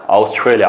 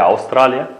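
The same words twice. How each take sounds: First: Australia said the English way, "aus-TRAY-lya"; English pronunciation. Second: Australia said the Uzbek way, "av-STRA-li-ya"; Uzbek pronunciation. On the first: Teacher gives students the country's English name, English pronunciation of Australia. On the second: Teacher translates the country name for students, Uzbek pronunciation of Australia. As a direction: say Australia with an open "ah", no English "ay". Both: Shown as a demonstration. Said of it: "And Australiyalik bo'lsa Australian".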